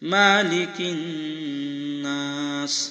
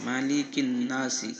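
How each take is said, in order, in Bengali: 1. এই বাক্যাংশটি ব্যঞ্জনবর্ণ s-এ শেষ হয়। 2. এই বাক্যাংশটি একটি হ্রস্ব স্বরবর্ণে শেষ হয়।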